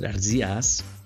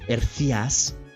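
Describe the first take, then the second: First: It is said in a general Spanish accent. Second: It is said in a Castilian Spanish accent. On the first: "We're gonna say it with a Spanish accent" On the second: "or like maybe a Castellano Spain accent"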